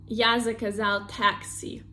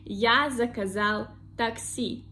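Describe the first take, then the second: First: The last word has English pronunciation. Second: The last word has Russian pronunciation. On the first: The speaker calls it wrong. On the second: The speaker calls it right.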